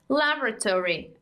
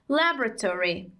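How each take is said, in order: First: It is said in an American accent. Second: It is said in an American accent.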